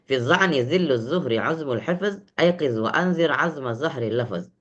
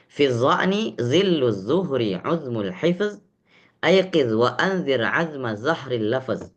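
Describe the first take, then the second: First: The verse is recited fast. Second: The verse is recited slowly.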